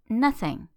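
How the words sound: It is said with a native English accent.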